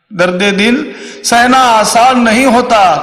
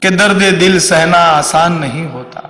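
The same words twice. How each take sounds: First: High-pitched, slow declaimed verse; raised shayari recital. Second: Slow, measured verse at normal pitch; shayari recital. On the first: Comedian repeats shayari line for effect, high slow declaiming. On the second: Comedian opens a mock Hindi shayari, measured recital. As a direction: recite the couplet slowly, without raising it. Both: Shown as a demonstration.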